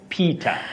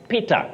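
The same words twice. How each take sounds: First: The name is said with an English accent. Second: The name is said with a Swahili-influenced accent. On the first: The speaker calls it right. "instead of Peter" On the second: The speaker calls it wrong. "we also find ourselves saying Peter"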